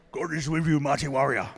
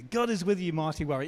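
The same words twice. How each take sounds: First: Louder, gruff warrior declaration; loud Spartan war greeting; Spartan battle cry. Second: Said in the usual way. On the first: Shown as a demonstration. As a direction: bark it like a Spartan before battle. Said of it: "say it like you're a Spartan". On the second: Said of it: "tell the person next to you".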